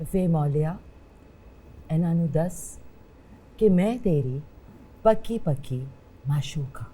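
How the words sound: It is said gently and softly.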